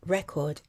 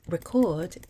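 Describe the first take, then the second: First: "record" as REC-ord, the noun; first-syllable stress. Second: "record" as re-CORD, the verb; second-syllable stress. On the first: Teacher names record as a noun, first-syllable stress. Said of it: "carries the stress on the first". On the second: Teacher names record as a verb, second-syllable stress. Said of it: "on the second syllable". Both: Shown as a demonstration.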